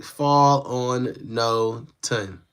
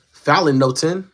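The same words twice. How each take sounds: First: Spelling out fall on no ton very slowly; sounding out slowly. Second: Said in the usual way. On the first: Shown as a demonstration. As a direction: fall on no ton, each part stretched very slowly. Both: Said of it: "it says, like".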